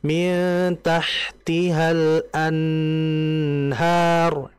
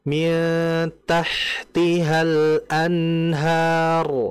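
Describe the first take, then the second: First: The n sound is held far too long. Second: The n sound flows for a moderate length. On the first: The speaker calls it wrong. "itu terlalu lama ya" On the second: The speaker calls it right. "alirannya apa? Sedang. Tidak lama-lama"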